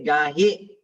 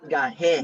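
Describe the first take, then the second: First: The word ends with an 'ee' vowel. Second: The word ends with an 'eh' vowel. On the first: The speaker calls it right. "You say gahi" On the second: The speaker calls it wrong. "not gahe"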